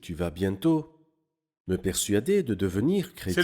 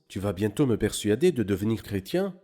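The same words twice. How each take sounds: First: It is said as a sincere exclamation, falling. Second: It is said as a doubtful question, rising.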